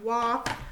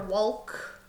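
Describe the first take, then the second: First: The L is silent in the word. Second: The L is sounded in the word. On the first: The speaker calls it right. "So we say walk" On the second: The speaker calls it wrong. "We don't say I'm going for a walk"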